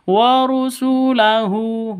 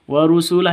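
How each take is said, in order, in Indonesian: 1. Kata ini berakhir dengan tambahan suku kata hu. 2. Kata ini berakhir dengan bunyi h saja. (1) "tidak dibaca warusulahu" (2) "hunya dibaca sukun, mati"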